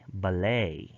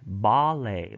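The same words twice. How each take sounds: First: The stress is on the last syllable. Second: The stress is on the first syllable. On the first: "they have end stress" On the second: "front stress"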